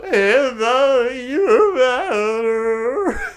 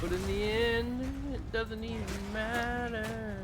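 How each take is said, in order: First: Slow wailing mock lament; sad drunk voice. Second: Mournful singsong delivery; sad drunk voice. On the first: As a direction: drag it out like a weepy drunk. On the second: Acted. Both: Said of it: "You sounded like a drunk old sad guy at a bar".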